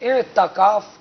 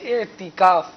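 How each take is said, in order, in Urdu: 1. 't' کے بعد 'a' مصوتہ آتی ہے۔ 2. 't' کے بعد 'a' مصوتہ نہیں آتی۔ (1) "تا کے زبر کے ساتھ, یہ درست نہیں غلط" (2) "یہ درست ہے"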